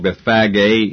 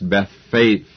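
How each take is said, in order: First: The final g is said as a hard g. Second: The final g is said as a soft g. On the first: The speaker calls it wrong. "which I have called Bethphage" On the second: The speaker calls it right. "perhaps would be better pronounced Bethphage, not a hard G"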